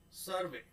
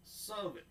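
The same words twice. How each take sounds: The two takes are said the same way.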